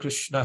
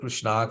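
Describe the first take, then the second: First: The final a is short. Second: The final a is long. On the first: The speaker calls it right. "it's Hare Krishna" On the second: The speaker calls it wrong. "We don't say Krishna"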